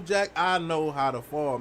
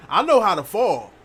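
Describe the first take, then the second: First: Slow, drawn-out Jack, I know how to fall; slow boast. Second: Louder and higher boast on know; emphatic boast. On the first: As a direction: lean back and savor each word. Repeating the boast slower. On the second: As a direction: shout the brag, hit know. Boasting about falling skills. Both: Real, not acted.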